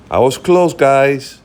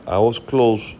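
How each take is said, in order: First: Pleased, higher and louder; a little victory cheer at a near-correct guess; excited. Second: Said in the usual way. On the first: Real, not acted. Streamer checks his guess on the gold price, delighted.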